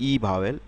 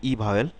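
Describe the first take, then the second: The two takes are said the same way.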